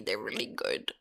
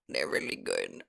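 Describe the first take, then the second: First: Said in the usual way. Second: Whispered. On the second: Acted. Repeats praise whispered.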